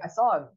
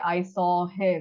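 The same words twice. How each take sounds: First: The words are squished together and reduced. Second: Every word is pronounced fully and clearly. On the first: "you're like I saw him" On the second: "you don't say I saw him"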